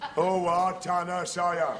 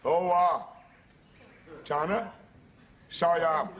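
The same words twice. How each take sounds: First: It is said fast. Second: It is said slowly.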